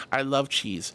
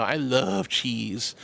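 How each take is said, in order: First: Said in the usual way. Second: Drawn out very slowly, softly; longing, stretched-out sigh of a line; slow dreamy craving. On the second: Real, not acted. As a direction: savor each word slowly. Craving cheese.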